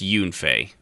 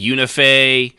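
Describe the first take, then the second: First: The name is said with two syllables. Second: The name is said with three syllables. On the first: The speaker calls it right. "it's just Yunfei" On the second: The speaker calls it wrong. "add extra syllables into it"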